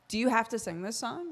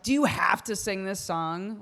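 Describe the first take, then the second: First: The question sounds curious and genuinely inquiring. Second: The question sounds annoyed and exasperated. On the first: The listener wants to know the reason for singing. "Like, are you singing it for a reason?" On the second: The listener wants the singing to stop. "Like, stop singing it"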